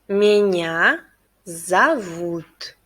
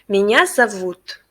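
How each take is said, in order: First: It is said at a slower pace. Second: It is said at a faster pace.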